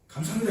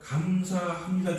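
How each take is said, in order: First: It is said quickly and briefly. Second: It is said slowly and drawn out.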